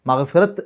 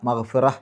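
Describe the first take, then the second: First: The word ends with a t sound. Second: The word ends with an h sound. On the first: The speaker calls it wrong. "മഗ്ഫിറത്ത് എന്നല്ല" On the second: The speaker calls it right. "ഹ് എന്നുള്ള ഉച്ചാരണമാണ് അവിടെ അവസാനത്തിൽ കൊടുക്കുക"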